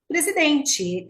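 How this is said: The final 't' sounds like 'ch'. This is how people in the Southeast say it. "Aqui em São Paulo, no Sudeste, nós falamos presidente, tem esse ti"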